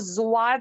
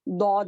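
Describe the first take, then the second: First: The letter name starts with a z-like sound. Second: The letter name starts with a heavy d sound. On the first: The speaker calls it wrong. "इसको जुवाद नहीं पढ़ेंगे, जुवाद जो है गलत है" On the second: The speaker calls it right. "अरब में दौद ही पढ़ा जाता है"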